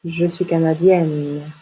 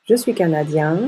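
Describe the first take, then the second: First: Canadienne with open yè and held n; open mouth ending. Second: Canadien rising on nasal yen; nasal ien ending. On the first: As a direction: slowly sound the n ending canadienne. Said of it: "on ouvre la bouche". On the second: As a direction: keep the N silent in canadien. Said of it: "se prononce ien". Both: Shown as a demonstration.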